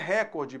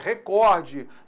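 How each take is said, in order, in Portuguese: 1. A sílaba tônica está na primeira sílaba. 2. A sílaba tônica está na segunda sílaba. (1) "não é recorde" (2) "ela é paroxítona"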